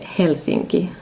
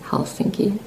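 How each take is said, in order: First: The stress is on the first syllable. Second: The stress is on the second syllable.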